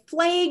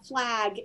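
First: The vowel is a long A sound. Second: The vowel is a short A sound. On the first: "an example from my Minnesota dialect" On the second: "most of you around the country would carry a flag in a bag"

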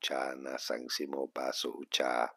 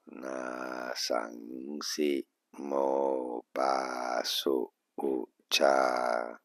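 First: The words are said at a quicker pace. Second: The words are said slowly, syllable by syllable.

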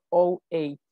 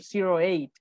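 First: The zero is read as 'oh'. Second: The zero is read as 'zero'. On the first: The speaker calls it right. "decimos 08. El cero se dice como la O" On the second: The speaker calls it wrong. "no podemos decir 08"

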